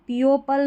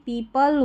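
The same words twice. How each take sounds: First: "पीओपल" as pee-o-pul; wrong demo "पीओपल" with an audible o; o wrongly sounded. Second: "people" as pee-pul; "people" with long ee and no o; silent o. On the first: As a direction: say "पीओपल" in three syllables. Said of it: "नहीं". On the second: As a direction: say "people" in two syllables. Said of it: "पीओपल नहीं". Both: Shown as a demonstration.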